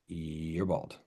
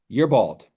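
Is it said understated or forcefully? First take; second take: understated; forcefully. First: It is said quietly and understated. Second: It is said with more force.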